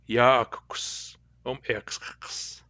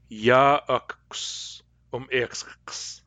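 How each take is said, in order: First: Very slow repeat of ya akuks um iksks in Cayuga dialect; slow Cayuga dialect echo. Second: Very slow Cayuga dialect ya akuks um iksks; drawn-out Cayuga dialect model sentence; slow careful Cayuga dialect. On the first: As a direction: say it again slowly, Cayuga dialect. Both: Shown as a demonstration. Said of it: "In Cayuga dialect".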